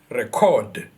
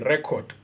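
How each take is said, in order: First: The stress is on the second syllable. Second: The stress is on the first syllable. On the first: It is used as a verb. "our stress is going to be in our second syllable" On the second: It is used as a noun. "the stress is at the beginning"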